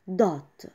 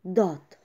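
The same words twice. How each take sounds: The two takes are said the same way.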